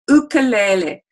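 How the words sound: It is said with a Hawaiian pronunciation. The speaker calls it right. "it's actually pronounced in Hawaii ukulele"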